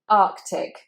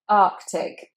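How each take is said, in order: Both takes have the same delivery.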